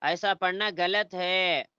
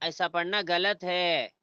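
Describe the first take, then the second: No difference in how they are said.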